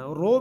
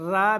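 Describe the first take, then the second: First: The vowel is a rounded o sound. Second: The vowel is a thin, light a sound. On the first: "रो ओंठों को गोल नहीं करना, रो भी नहीं पढ़ना" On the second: "रा भी नहीं पढ़ना"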